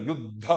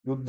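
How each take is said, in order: First: युद्ध lower, with an aspirated push on dha; force on dha. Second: युद्ध said lightly, without force on dha; unstressed dha. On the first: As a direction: put weight on the breathy dha of युद्ध. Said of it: "तो बल दो". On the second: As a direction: let the dha of युद्ध pass without weight. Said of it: "ऐसा नहीं". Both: Shown as a demonstration.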